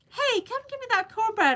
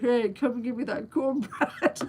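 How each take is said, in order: First: It is said in a normal voice. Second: It is said in a deep, man-like voice. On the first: The voice sounds like hers. The speaker calls it right. "She should say" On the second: The voice sounds like a man's. The speaker calls it wrong. "Now we worry about the voice"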